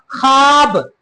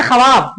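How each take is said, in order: First: ख्वाब said as khaab, one syllable; silent vav. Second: ख्वाब said as kha-vaab; wrongly sounded vav. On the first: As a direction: drop the v in ख्वाब. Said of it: "ख्वाब बोलते हैं". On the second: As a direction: sound the v in ख्वाब as a second syllable. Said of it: "नहीं ना". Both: Shown as a demonstration.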